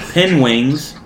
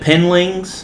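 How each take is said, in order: First: The word is said as penwings. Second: The word is said as penlings. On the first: "He said penwings a few times" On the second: "He said penlings"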